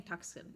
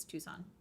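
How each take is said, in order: First: "Tucson" said the mistaken way, with a hard k sound; mispronounced Tucson. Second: "Tucson" with a silent c, TOO-sahn; corrected Tucson. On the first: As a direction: slip up on "Tucson", sounding the silent c. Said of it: "I keep saying Tucson". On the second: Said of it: "It's Tucson". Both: Shown as a demonstration.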